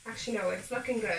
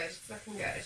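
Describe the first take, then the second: First: Said in the usual way. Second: "It's looking good" said again softer, as a murmured echo; soft echo, half to herself; quiet repeat to herself. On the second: Real, not acted. Repeats phrase softly to herself.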